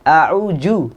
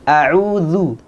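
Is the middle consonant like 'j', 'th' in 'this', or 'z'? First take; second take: j; th. First: The middle consonant sounds like a 'j'. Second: The middle consonant sounds like 'th' in 'this'. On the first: The speaker calls it wrong. "ada yang membacanya dengan jim" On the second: The speaker calls it right. "Za ada di ujung lidah ketemu dengan ujung gigi seri yang atas"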